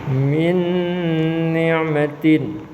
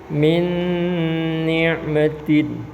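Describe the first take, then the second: The two takes are said the same way.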